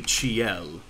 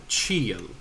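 First: "ciel" as chee-EL, drawn out; stress kept on E. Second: "ciel" as CHEE-el; first-syllable stress. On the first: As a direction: stress the final syllable of "ciel". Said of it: "this would still be ciel". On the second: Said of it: "There's two different words". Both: Shown as a demonstration.

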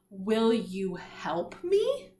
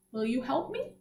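First: Very slow, each word drawn out, rising at the end; slow read-along. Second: Said in the usual way. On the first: Shown as a demonstration. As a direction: stretch each word so the class can follow. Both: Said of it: "Let's read it all together now".

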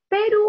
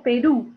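First: "Perú" misstressed as PE-ru, loud high PE; stress on first syllable. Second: "Perú" with the weight on final RÚ; stress on last syllable. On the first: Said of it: "Yo digo canción o canción". ("Perú" con la fuerza en PE: PÉ-ru) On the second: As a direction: say "Perú" as pe-RÚ, landing on the ending. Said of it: "está la mayor fuerza de voz". ("Perú" con la fuerza al final: pe-RÚ) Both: Shown as a demonstration.

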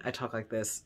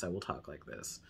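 First: Said in the usual way. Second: Very low, soft at-home voice; natural house voice. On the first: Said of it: "But when I'm filming". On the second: Shown as a demonstration. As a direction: drop well down in pitch and volume. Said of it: "Usually when I'm around the house".

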